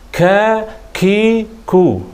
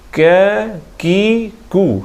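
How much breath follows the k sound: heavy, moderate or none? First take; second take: heavy; moderate. First: The k sound has a heavy, excessive puff of breath. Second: The k sound has a light, moderate puff of breath. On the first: The speaker calls it wrong. "jangan kakiku, ha, itu salah lah" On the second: The speaker calls it right. "sekadar tu angin"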